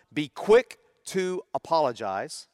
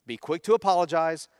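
First: Be quick to apologize said slowly, each word weighted; slow emphatic rule. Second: Said in the usual way. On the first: Shown as a demonstration. Pastor stating the family's first rule to the congregation, slow and deliberate. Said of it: "two rules that we have infused". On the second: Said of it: "And number two".

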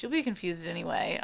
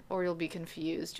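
First: A quick throwaway joke; fast aside. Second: Said in the usual way. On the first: Real, not acted. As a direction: rattle off You'll be confused anyway quickly.

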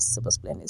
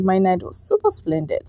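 First: "super splendid" whispered under the breath. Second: Said in the usual way. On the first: Shown as a demonstration. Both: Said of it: "decided to stop using the word splendid".

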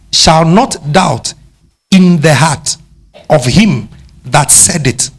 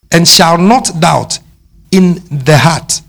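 First: Slow, deliberate "not" leaned on; stress on not. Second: "not" stressed, slow and weighty. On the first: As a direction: press down on "not" and slow the phrase. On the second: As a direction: hit "not" slowly and firmly. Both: Shown as a demonstration. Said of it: "I want to show you something again".

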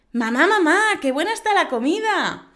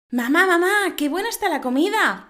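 First: Put-on high, even louder child calling again; the girl repeats it, missing the joke; little girl voice. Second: Put-on high, loud little girl calling her mother. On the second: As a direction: play an eager child praising dinner. Child voice in a joke.

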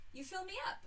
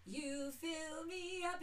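First: Quick, high-pitched jab; mocking quote. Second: Slow, drawn-out crooning of every word; sung, mock love song. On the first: Daughter mocking the cliché, high quick jab. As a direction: toss it off high and fast, making fun of it. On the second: Mocking sappy love songs, slow dreamy croon. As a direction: croon it like a sappy ballad, stretching each word. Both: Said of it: "It's like every song".

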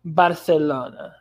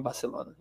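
First: "Barcelona" slow, with a lisped th for the c; "Barthelona", drawn out with a Castilian lisp; Spanish lisp. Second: Said in the usual way. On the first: Shown as a demonstration. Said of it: "língua sibilante presa". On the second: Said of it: "os espanhóis falando Barcelona".

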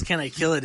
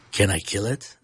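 First: Said in the usual way. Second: Lightly imitated low, deadpan question; a hint of the actor's low delivery; Peter Dinklage. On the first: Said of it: "the way he says". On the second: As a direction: drop the pitch for the quote, lifting at the end. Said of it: "the way he says, "Can I kill it?".

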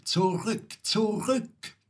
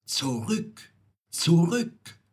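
First: High, climbing bird's warning; urgent high-pitched call to turn back. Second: Warning call that climbs on the repeat; second ZURÜCK higher and much louder. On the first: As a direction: cry ZURÜCK high, higher on the repeat. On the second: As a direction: call back, building from measured to urgent. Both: A narrator's reading. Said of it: "Die Nachtigall ruft".

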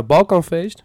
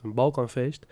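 First: "balkanfeest" wat luider en hoger uitgeroepen; said loudly. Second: Said in the usual way. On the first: Shown as a demonstration. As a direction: roep "balkanfeest" er nadrukkelijk uit. ("balkanfeest" luid uitgesproken) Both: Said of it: "Zo, dat zeg ik even heel hard".

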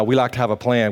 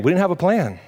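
First: "We" leaned on at the start, then falls to a steady end on "plan"; "We like to have a plan" with weight on "We"; stress on WE. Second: "plan" lifted and then dropped, the whole line higher; "We didn't have a plan" with the turn on "plan"; punchline stress. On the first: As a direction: press the word "We" to set up the contrast. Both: Shown as a demonstration.

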